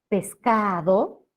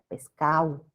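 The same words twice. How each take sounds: First: The d sound is fully pronounced. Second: The d sound is dropped in quick speech. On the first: "que tiene una D" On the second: "dicen en el habla rápida pescado"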